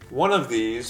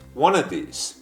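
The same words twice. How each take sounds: First: The word 'of' is said with its full v sound. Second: The word 'of' is reduced to a short 'uh'.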